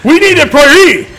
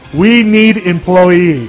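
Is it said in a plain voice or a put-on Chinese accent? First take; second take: Chinese accent; plain voice. First: It is said in a put-on Chinese accent. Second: It is said in his plain, normal voice.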